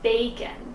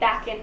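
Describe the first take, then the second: First: The first vowel is long, as in bake. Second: The first vowel is short, as in back. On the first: The speaker calls it right. "it's bacon" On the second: The speaker calls it wrong. "it's not backen"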